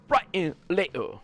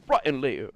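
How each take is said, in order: First: Slow, hammed-up English accent; Andrew Tate impression. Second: Andrew Tate impression. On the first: Streamer mocks his own Andrew Tate line in a hammed-up English accent. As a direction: drag out brighter later in a bad Andrew Tate accent. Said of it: "the worst impression ever". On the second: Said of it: "I sound like, like Andrew Tate".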